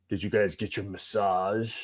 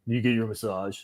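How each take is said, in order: First: Slow, drawn-out buddy voice; teasing buddy asking about massages, slow mock drawl; buddy's voice. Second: Said in the usual way. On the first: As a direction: mimic how the buddy asks, slowly. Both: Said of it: "That's how we talk".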